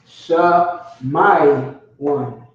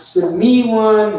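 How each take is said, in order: First: The first vowel is an open ah. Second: The first vowel is an eh sound. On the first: The speaker calls it right. "All ah sounds" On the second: The speaker calls it wrong. "Not Shemi one"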